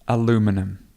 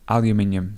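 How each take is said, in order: First: It has four syllables, ending in -num. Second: It has five syllables, ending in -nium. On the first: "if you're from America or from North North America, you will say aluminum" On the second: "If you're from places like the U K or Australia, you would say aluminium"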